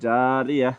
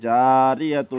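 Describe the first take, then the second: First: The word ends on a vowel, no -tun. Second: The word ends with a final -tun sound. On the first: The reading stops at this word. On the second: The reading continues without stopping here.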